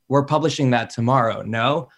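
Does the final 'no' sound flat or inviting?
flat. The final no is short and flat.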